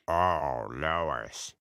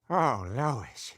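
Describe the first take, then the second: First: The voice is pitched lowest of all. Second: The voice is at its ordinary pitch.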